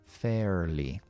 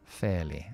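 First: The R after the vowel is pronounced. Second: The R after the vowel is silent.

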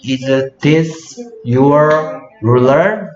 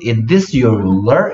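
First: The sentence is said slowly, word by word. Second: The sentence is said fast, words run together.

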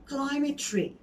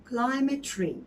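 No difference in how they are said.

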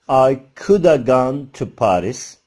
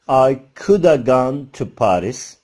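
First: 'Could have' is reduced to 'coulda'. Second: 'Could have' is reduced to 'coulda'.

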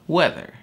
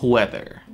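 First: The word begins with a plain w sound. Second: The word begins with a breathy hw sound. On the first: The way the word is said today. The speaker calls it right. "Но в настоящее время просто weather" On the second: An older way of saying the word. The speaker calls it wrong. "И вы могли услышать такие вариации"

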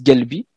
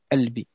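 First: The word begins with a hard g sound. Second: The word begins directly with a vowel. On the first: This is how it is said in the Near East and Morocco. "ils disent galbi" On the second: This is how it is said in Lebanon, Syria and Palestine. "ils ont plutôt albi"

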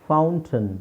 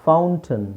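Both takes have the same delivery.

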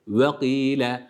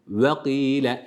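The two takes are said the same way.

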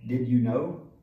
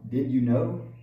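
First: The stress is on you. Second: The stress is on you.

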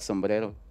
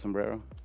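First: It is said with a Mexican Spanish pronunciation. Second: It is said with an American English pronunciation.

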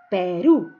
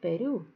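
First: The word is articulated clearly and distinctly. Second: The word is articulated unclearly and indistinctly. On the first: The speaker calls it right. "para decir Perú" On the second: The speaker calls it wrong. "No voy a decir Perú"

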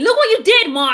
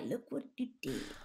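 First: It is said in an angry voice. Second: It is said in a calm voice.

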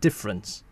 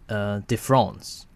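First: It is pronounced fully in English. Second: It is pronounced half English, half French. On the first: "you might as well call it difference" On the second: "kind of a mixing of English and French"

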